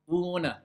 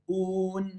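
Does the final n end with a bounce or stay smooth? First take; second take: bounce; smooth. First: The final n ends with a small bounce. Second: The final n ends smoothly without a bounce. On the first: The speaker calls it wrong. "C'est faux" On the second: The speaker calls it right. "je ne dois pas avoir ce, cette petite résonance"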